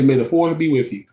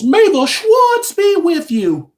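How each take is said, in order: First: Said in the usual way. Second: High, slow, hammed-up wise-master voice; Spaceballs quote. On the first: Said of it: "I'm just gonna say". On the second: Quoting Spaceballs for viewers, high and drawn out. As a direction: draw it out high like a movie mentor. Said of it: "in the words of the, uh, folks in Spaceballs".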